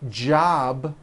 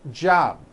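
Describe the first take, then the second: First: The final B sound is clearly heard. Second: The final B sound is dropped.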